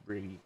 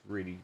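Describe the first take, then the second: No difference in how they are said.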